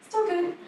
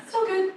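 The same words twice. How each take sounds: The two takes are said the same way.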